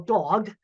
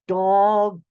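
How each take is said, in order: First: The word is said at normal speed. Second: The word is said slowly and carefully enunciated.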